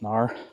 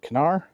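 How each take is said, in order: First: The word begins directly with an N sound. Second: The word begins with a sounded K. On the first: The speaker calls it right. "I'm pretty sure it's just Nar" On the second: The speaker calls it wrong. "they wouldn't put the K on there if it wasn't there for a reason"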